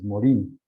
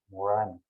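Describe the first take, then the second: First: The last vowel is a plain Spanish 'i'. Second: The last vowel is a French nasal vowel. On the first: This is how the name is written. "si usted escribe, pues es Morín" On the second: This is how the name is said in French. "en el francés, se diría Edgar Morán"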